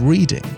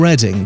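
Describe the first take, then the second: First: The name is said the way Americans would. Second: The name is said the local British way.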